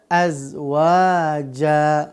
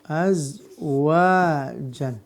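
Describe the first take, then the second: First: The word ends with a long a vowel. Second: The word ends with an n sound.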